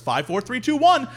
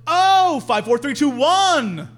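First: Said in the usual way. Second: Loud, high OH, then slower digits; mock dawning understanding, drawn out; sudden realization. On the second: Woman finally getting the bathroom code, exaggerated realization.

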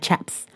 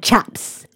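First: Chaps quiet, broad a for chips. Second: Chaps with a broad open a, like chaps. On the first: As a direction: Chaps said softly, open a. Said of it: "so everything is like". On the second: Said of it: "the way she said it". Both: Retold or imitated.

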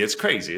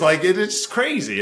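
First: Said in the usual way. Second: Higher, louder, marveling at it; excited. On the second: Real, not acted. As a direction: let the disbelief burst out on "crazy". Repeats crazy, first more excited.

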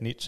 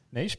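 First: Niche said as "nitch"; short i, tch ending on niche; other creator's pronunciation. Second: Niche said as "neesh"; own pronunciation. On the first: Retelling a fun argument with a creator, niche as "nitch". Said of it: "he said niche, I said niche". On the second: Retelling own side of the argument, niche as "neesh". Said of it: "I said niche". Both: Retold or imitated.

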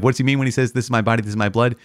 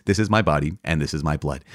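First: Higher-pitched, quizzical lilt; raised pitch, playfully rhetorical; mock puzzled question. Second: Said in the usual way. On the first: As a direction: ask it like a mock-baffled questioner. Voices a doubter's obvious question.

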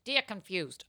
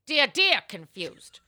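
First: Said in the usual way. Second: Slow, higher, louder advice columnist; hammed-up columnist greeting; Ann Landers. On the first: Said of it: "Oh, I'm sorry". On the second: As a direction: draw out a doting salutation. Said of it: "the answer is in Anne's voice".

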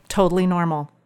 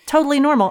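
First: Said in the usual way. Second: "Totally normal" said much higher, "totally" stressed; emphatic repeat. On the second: Shown as a demonstration. Narrator to friend, wry emphatic repeat of "Totally normal".

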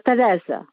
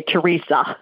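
First: Teresa with the Italian r and a z-like s, stress on the second syllable; Italian pronunciation. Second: Teresa with the American r and an ee sound, tuh-REE-suh; American pronunciation. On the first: Real, not acted. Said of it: "you're just saying it with an accent". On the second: Shown as a demonstration. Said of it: "we Americans say Teresa".

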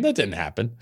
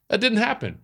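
First: Said in the usual way. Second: "didn't" pitched higher, falling hard; "That didn't happen" repeated up high, stressing "didn't"; emphatic repeat. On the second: Shown as a demonstration. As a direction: lean on "didn't", much higher.

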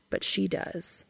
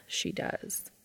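First: Said in the usual way. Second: Soft unvoiced whisper. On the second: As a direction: breathe the words, no voice. Whispered echo of the line before.

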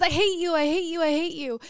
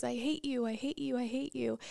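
First: Loud, higher shout out into the valley; acted child's yell, louder and higher. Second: Softer, fading echo of the yell; a quieter, faraway answer; distant echo. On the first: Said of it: "he walks outside, and he says". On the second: Retold or imitated. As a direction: let it come back small from far off. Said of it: "that echo comes back".

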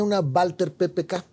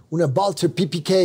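First: "P P K" read as Spanish "pe pe ka"; Spanish letter names. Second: "P P K" read as English "pee pee kay"; English letter names. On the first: Spanish then English name of gun. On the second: Repeats gun name in English. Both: Shown as a demonstration.

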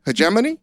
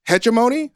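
First: Hegemony with stress on GEM, rising; Hegemony tentatively, other stress; second attempt. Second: Hegemony with a questioning rise; hegemony tried tentatively; unsure pronunciation. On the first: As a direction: try Hegemony again, asking. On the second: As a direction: try hegemony, asking. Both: Shown as a demonstration. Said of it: "I don't know how to pronounce it properly".

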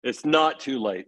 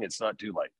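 First: Said in the usual way. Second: Soft, breathy whisper of comfort; hushed whisper. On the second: Real, not acted. Whispering to a parent who fears failing. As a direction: drop to a whisper to reassure.

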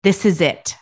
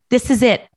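First: Said in the usual way. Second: Louder and higher, mock-emphatic friend; friend's emphatic line. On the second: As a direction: play the friend, pushing the point louder and higher. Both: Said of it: "she's like".

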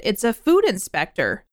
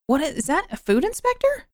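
First: Said in the usual way. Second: High, questioning lift; incredulous question. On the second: Acted. Podcaster questioning the job title, high and incredulous. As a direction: climb sharply in pitch to the end. Acted question to herself, then answered.

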